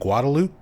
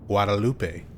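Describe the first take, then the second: First: The name is pronounced with anglicized local English sounds. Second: The name is pronounced with Spanish sounds, as spelled. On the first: The name is said the way people born in the city say it. "the locals pronounce it one way" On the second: The name is read the way its spelling suggests. "if you are a Spanish speaker, you would probably want to pronounce it Guadalupe because that's how it's spelled"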